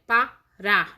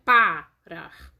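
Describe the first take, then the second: First: Parar with the weight on final RAR; parar, second syllable leaned on; stress on the last syllable. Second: Parar wrongly stressed as PA-rar; stress on the first syllable. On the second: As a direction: punch the PA of parar, drop the rest. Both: Shown as a demonstration. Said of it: "não é parar".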